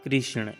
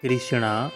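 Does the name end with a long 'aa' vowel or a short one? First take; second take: short; long. First: The name ends without a long 'aa' vowel. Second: The name ends with a long 'aa' vowel. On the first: It names the supreme Lord. The speaker calls it right. "भगवान श्री कृष्ण का नाम कृष्ण है।" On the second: It names Bhudevi or Draupadi. The speaker calls it wrong. "कृष्णा उच्चारण गलत है।"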